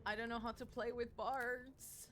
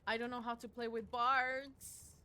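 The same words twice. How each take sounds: First: Said in the usual way. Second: Loud, slow complaint; exasperated. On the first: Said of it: "repeats line". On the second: Real, not acted. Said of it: "repeats line quieter".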